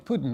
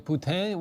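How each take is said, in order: First: It sounds like the Russian surname, POO-tin. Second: It sounds like the French-style poo-TEEN. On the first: It sounds like a Russian leader's name. "would you upset the Russians?" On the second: It uses the French-style pronunciation of the dish. "would you upset the French people?"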